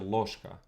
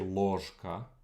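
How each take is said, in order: First: The zh sound is reduced. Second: The zh sound is fully pronounced. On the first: The speaker calls it right. "a lot of times the zh gets reduced" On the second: The speaker calls it wrong. "You don't say"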